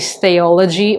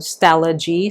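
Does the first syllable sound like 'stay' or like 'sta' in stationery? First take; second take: stay; sta. First: The first syllable sounds like 'stay'. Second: The first syllable sounds like 'sta' in stationery. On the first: The speaker calls it wrong. "I think they might have misread it" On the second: The speaker calls it right. "how do you say stationery and technology?"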